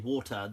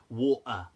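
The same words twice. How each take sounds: First: The middle consonant is a clear t sound. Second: The middle consonant is a glottal stop. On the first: "they won't say water" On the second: "pronounce the T in certain things as a, a kind of glottal stop"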